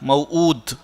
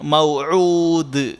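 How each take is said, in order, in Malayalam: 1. അവസാന d കുതിപ്പില്ലാതെ പരന്ന് നിൽക്കുന്നു. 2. അവസാന d ഒരു ചെറിയ പ്രതിധ്വനിയുള്ള കുതിപ്പോടെ അവസാനിക്കുന്നു. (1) "എന്നങ്ങനെ നിർത്തരുത്" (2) "ആ രൂപത്തിലായിരിക്കും നിർത്തുക"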